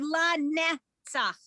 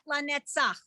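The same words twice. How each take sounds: First: The stress is on the first syllable. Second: The stress is on the last syllable. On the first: The speaker calls it right. "So it would be la netzach, la" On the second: The speaker calls it wrong. "not la netzach"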